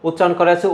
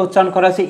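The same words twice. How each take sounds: The two takes are said the same way.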